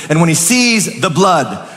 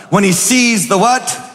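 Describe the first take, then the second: First: "sees the blood" said as a falling statement; a plain read of "the blood" that drops at the end. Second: "sees the what" rising as a question to the crowd; call-and-response question. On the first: Preacher reads the verse to the church, a falling statement. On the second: Preacher prompts the church to answer, a rising question. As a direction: toss "the what" up for the congregation to answer. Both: Shown as a demonstration.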